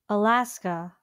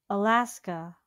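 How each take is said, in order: No difference in how they are said.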